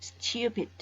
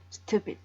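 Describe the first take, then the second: First: A y sound follows the t, styoo. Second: No y sound follows the t, stoo. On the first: "Kalau untuk British itu stupid ... Ada Y-nya ya" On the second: "Untuk American"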